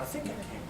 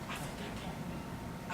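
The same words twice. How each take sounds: First: It is said a little louder. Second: It is said quietly.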